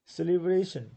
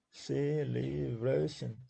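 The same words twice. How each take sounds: First: Said in the usual way. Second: "celebration" very slowly split into four syllables. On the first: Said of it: "there are four syllables". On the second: Shown as a demonstration. Teacher counting four syllables in "celebration" for students, syllable by syllable. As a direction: stretch each of the four beats of "celebration". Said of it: "four syllables".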